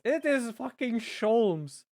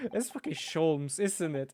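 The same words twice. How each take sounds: First: "is" hit higher and louder, slow and excited; excited stress on is. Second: Said in the usual way. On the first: Real, not acted. Streamer recognizing the detective, excited slow stress on "is". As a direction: lean hard on "is", drawn out. Recognizes character, says it twice.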